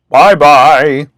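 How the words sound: It is said in a deep, gruff voice.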